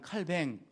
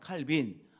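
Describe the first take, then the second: First: The name ends with the syllable 'baeng'. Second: The name ends with the syllable 'bin'. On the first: This is the French way of saying it. "불란서식으로 발음을 하면" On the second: This is the English way of saying it. "영어식으로 말하면"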